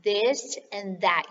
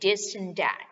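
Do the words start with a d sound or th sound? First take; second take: th sound; d sound. First: The words begin with a tongue-out th sound. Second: The words begin with a hard d sound. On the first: The speaker calls it right. "You have to stick out your tongue" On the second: The speaker calls it wrong. "careful you don't say this and that"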